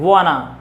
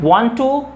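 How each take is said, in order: First: The words merge into one reduced word. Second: Both words are said separately in full.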